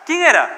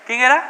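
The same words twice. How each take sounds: First: ¿Quién era? thrown out high and loud, falling; emphatic question. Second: ¿Quién era? asked again with a rising end; teasing repeated question. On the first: Preacher hits ¿Quién era? loud and falling to his listeners. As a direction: punch ¿Quién era? hard to the church. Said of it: "rhetorical question to congregation". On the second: Preacher repeats ¿Quién era? rising, inviting the congregation to answer. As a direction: let ¿Quién era? lift up, waiting for an answer. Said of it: "repeated question to congregation". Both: Shown as a demonstration.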